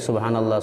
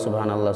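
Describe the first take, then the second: The two takes are said the same way.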